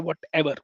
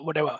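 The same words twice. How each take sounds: First: The final R sound is clearly pronounced. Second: The final R sound is dropped. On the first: The speaker calls it right. "I will try to pronounce the last character" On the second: The speaker calls it wrong. "I don't want to say what whatever"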